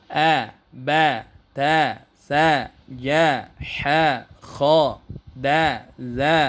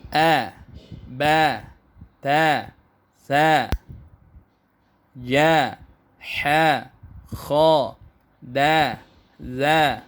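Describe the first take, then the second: First: The syllables are recited at a fast pace. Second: The syllables are recited at a slow pace. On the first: "Versi cepatnya seperti ini" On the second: "cara bacanya seperti ini"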